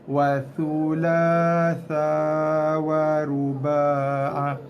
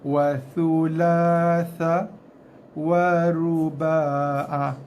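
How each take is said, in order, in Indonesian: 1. Frasa itu dibaca lancar tanpa berhenti. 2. Frasa itu dibaca terputus-putus dengan berhenti. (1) "boleh baca join terus, sambung tanpa henti" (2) "Lebih baik kita stop, putus-putus"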